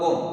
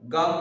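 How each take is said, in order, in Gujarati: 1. સ્વર ગોળ 'o' અવાજ છે. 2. સ્વર ખુલ્લો 'aa' અવાજ છે.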